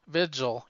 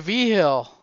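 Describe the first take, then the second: First: The middle consonant is a J sound. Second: The middle consonant is an H sound. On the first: This is the pronunciation used by outsiders. "that's how kayfabe guys said it" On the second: This is the local pronunciation. "But I say V-Hill. That's a New Mexican thing"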